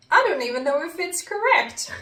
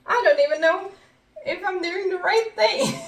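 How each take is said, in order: First: Said in the usual way. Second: More frantic repeat. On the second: Retold or imitated. Repeated worried quote, second take.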